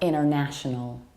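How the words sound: The T after the N is dropped. "American accent, we tend to skip T"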